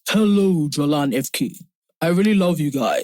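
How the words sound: It is read in a put-on character voice.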